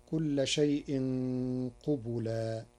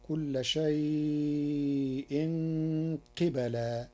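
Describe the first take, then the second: First: قبلا with u on qaf and ba; قبلا read as qubulan; reading of Hafs. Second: Slow recited قبلا with qaf in i and ba in a; قبلا read as qibalan; Warsh reading. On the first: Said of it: "قرأ ورش كلمة قبلا بكسر القاف وفتح الباء". (قبلا بضم القاف والباء) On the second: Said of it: "بكسر القاف وفتح الباء". (قبلا بكسر القاف وفتح الباء) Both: Shown as a demonstration.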